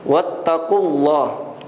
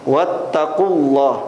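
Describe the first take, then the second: No difference in how they are said.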